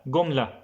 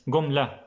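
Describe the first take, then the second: Both takes have the same delivery.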